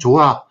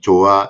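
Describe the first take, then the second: First: It is said brightly, in a higher voice. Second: It is said flatly, without expression.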